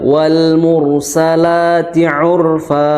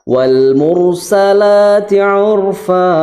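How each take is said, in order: First: The final vowel is held only briefly. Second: The final vowel is drawn out too long. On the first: The speaker calls it right. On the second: The speaker calls it wrong. "itu kepanjangan"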